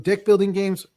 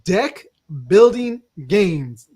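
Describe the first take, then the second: First: The vowel in deck is unclear. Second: The vowel in deck is clear. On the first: The speaker calls it wrong. "I'm gonna need you to enunciate that E a little bit better" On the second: The speaker calls it right. "There you go"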